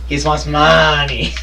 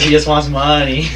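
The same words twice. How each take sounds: First: It is said in a put-on character voice. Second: It is said in his normal speaking voice.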